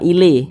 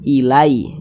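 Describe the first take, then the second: First: The word ends in an e sound. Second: The word ends in a soft ai glide. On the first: The speaker calls it wrong. "jangan sampai condong ke e" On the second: The speaker calls it right. "tapi dilunakkan mudah"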